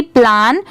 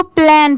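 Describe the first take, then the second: First: "प्लान" with an open aa, as plaan; long aa vowel. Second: "प्लान" with a flat ae vowel, as plaen; standalone plan vowel. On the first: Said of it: "इसकी pronunciation क्या हो जाएगी?". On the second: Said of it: "अगर ये separate होता". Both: Shown as a demonstration.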